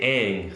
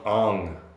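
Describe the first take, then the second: First: The name is said the cartoon series' way. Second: The name is said the movie's way. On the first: This is how the original series says the name. The speaker calls it right. "They say Aang throughout the entire series" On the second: This is how the movie says the name. The speaker calls it wrong. "In the movie, they call him Ong"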